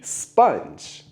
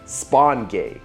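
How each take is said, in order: First: The first vowel is an 'uh' sound, one syllable. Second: The first vowel is an 'aw' sound, two syllables. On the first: The speaker calls it right. "like with a U sound" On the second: The speaker calls it wrong. "If I pronounce it the way that it's spelled"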